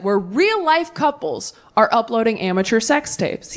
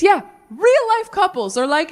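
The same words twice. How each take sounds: First: Said in the usual way. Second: "real-life" pitched high and drawn out slow; mock-amazed "real-life" couples; sarcastic stress. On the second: Shown as a demonstration. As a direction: lean on "real-life" in disbelief.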